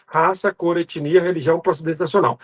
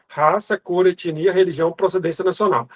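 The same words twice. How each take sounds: The two takes are said the same way.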